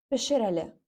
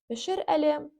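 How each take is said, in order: First: It is said as in speech, merged into one. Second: It is read carefully as two separate words. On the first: "в устной речи может звучать как пешереле" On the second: "если мы читаем как пешереле"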